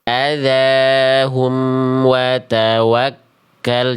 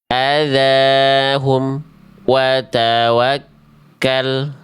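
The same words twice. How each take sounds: First: The m sound flows unbroken into wa. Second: The m sound is cut off before wa. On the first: The speaker calls it right. "Jadi bunyi em-nya tidak terputus" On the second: The speaker calls it wrong. "bacaan yang salah karena bunyi em-nya terputus"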